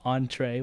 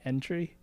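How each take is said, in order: First: It is said like 'on-tray', French style. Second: It is said like the English word 'entry'. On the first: The speaker calls it right. "entree was pronounced that way" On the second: The speaker calls it wrong. "not entry"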